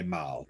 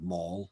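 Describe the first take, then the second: First: The vowel rhymes with 'pal'. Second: The vowel rhymes with 'ball'. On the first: This is the local way, from the old game's name. "we say Mal because of Palais Malier" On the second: This is the American way of saying it. "instead of mall, like be a very American term"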